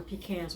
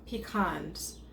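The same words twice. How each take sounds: First: Pecans said as pee-KANS; pee-KANS pronunciation. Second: Pecans said as pee-KAHNS; pee-KAHNS pronunciation. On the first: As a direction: say pecans with the short "a" of "cat" in the second syllable. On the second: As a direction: say pecans with a broad "ah" in the second syllable. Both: Shown as a demonstration. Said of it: "however you choose to pronounce it".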